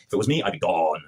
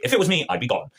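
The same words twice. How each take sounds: First: Said in the usual way. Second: Higher take. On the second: Shown as a demonstration.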